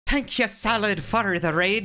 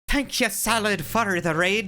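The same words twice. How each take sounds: First: It is spoken in a put-on Irish accent. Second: It is spoken in a put-on Irish accent.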